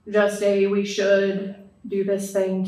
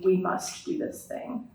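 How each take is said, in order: First: "should" said slow and drawn out; stress on should. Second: "must" in a slow, hushed whisper; stress on must. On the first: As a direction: lean on "should" gently, slowly. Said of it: "So it goes beyond". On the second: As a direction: breathe "We must do this thing" slowly. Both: Shown as a demonstration.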